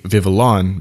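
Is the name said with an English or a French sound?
English. The name is said with a plain English sound. The speaker calls it wrong. "that obviously doesn't even sound right"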